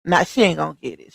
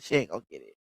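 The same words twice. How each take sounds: First: Said in the usual way. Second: Quiet. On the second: Shown as a demonstration.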